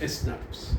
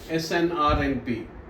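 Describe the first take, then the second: First: It is spoken as a single word. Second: Each letter is spoken separately. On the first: The speaker calls it right. "You simply say SNRPs" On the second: The speaker calls it wrong. "You don't say snRNP"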